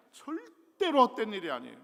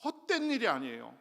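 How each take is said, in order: First: "절대로" punched higher and loud, then falling; louder, higher repeat stressing "절대로"; stronger emphasis on 절대로. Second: "헛된" pressed, a little louder; firm, raised "헛된"; emphatic assurance. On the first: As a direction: hammer "절대로" home. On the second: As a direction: lean into "헛된" to reassure. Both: Shown as a demonstration.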